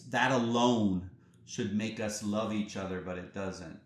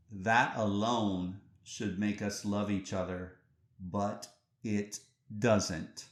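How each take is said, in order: First: Said in the usual way. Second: Deliberate pauses, each word of "but it doesn't" set apart; slow, weighty repeat. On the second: Real, not acted. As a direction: let "but it doesn't" drag out slowly. Quoted line repeated slowly for weight.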